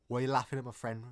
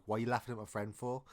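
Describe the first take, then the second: First: Louder mock Scouse challenge; Scouse accent. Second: Said in the usual way. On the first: Kenny defends his friend, in a mock Scouse accent. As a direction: confront someone in a put-on Scouse accent. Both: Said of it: "didn't have the proper Scouse accent".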